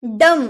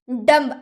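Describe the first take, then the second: First: डम ending on m; correct pronunciation. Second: डम्ब with the b sounded; wrong pronunciation. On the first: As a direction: say डम with no b at the end. (डम, आख़िर में ब नहीं) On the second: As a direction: say डम्ब ending on a clear b. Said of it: "हम बोलेंगे डम्ब". (डम्ब में ब साफ़ बोलें) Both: Shown as a demonstration.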